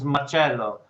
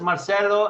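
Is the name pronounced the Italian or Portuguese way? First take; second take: Italian; Portuguese. First: The name is said with Italian pronunciation. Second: The name is said with Portuguese pronunciation. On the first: "Italian is Marcello" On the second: "In Portuguese is Marcelo"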